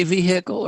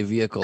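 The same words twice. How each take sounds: First: "vehicle" as VEE-hick-ul, H clearly sounded. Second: "vehicle" as VEE-ickle, no H; vehicle with silent H. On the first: Retold or imitated. Questioning a guest's way of saying it, "vehicle" with a sounded H. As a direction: say "vehicle" with a hard, audible H. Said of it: "do you always say vehicle". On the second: Shown as a demonstration. Offering the guest the proper way, "vehicle" with a silent H. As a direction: drop the H in "vehicle": VEE-uh-kul. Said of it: "say vehicle like God intended".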